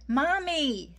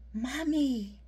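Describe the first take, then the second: First: It is said a little louder. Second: It is said very quietly.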